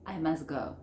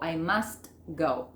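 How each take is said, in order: First: "I must go" as I mus-go; native, silent T. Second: "I must go" with the t of "must" sounded; over-articulate "must", then "go"; T fully pronounced. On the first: Teacher saying it like a native, T dropped. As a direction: drop the t of "must", linking to "go". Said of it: "no pronuncio la T". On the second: Teacher showing what not to say, T sounded. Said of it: "Yo no digo". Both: Shown as a demonstration.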